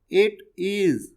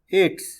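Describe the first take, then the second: First: Both words are said in full. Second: The words are merged into one short syllable.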